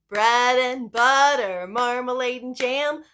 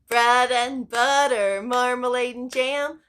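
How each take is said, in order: The two takes are said the same way.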